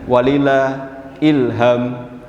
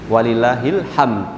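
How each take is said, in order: First: The phrase ends with the word 'ilham'. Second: The phrase ends with the word 'hamd'. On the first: It means 'and to Allah belongs inspiration'. The speaker calls it wrong. "jangan walillah ilham" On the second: It means 'and to Allah belongs praise'. The speaker calls it right. "Walillahil hamd gitu"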